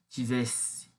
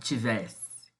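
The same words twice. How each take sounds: First: The stressed e vowel is closed. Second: The stressed e vowel is open. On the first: This is how it was likely read in the poet's era. "esse e fechado, né, do tivesse" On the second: This is the modern Brazilian reading. "e não tivesse"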